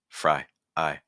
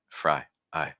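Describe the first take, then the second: The two takes are said the same way.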